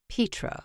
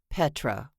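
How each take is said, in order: First: The first vowel is long, as in peat. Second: The first vowel is short, as in pet. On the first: The speaker calls it right. "It's Petra, like peat moss" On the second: The speaker calls it wrong. "It's not Petra, like your cat is a pet"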